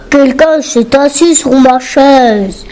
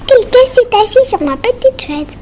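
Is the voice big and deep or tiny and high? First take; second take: big deep; tiny high. First: It is said in a big, deep voice. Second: It is said in a tiny, high voice.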